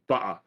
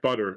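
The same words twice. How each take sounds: First: The middle consonant is a glottal stop. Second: The middle consonant is a clear t sound. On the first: "a glottal stop is when you drop out the uh, the middle consonant" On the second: "rather than saying like"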